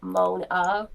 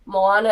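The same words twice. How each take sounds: First: "Mona" said in two syllables, the a of Moana dropped; "Mona", like "moan-a"; misspelled Moana. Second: Said in the usual way. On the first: Shown as a demonstration. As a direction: read the misspelling "Mona" as written. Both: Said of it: "Moana is spelled Mona".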